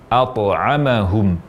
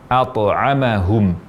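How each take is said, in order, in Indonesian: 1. Bunyi t dilepaskan dengan gema pantulan yang singkat. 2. Bunyi t dilepaskan dengan gema pantulan yang singkat.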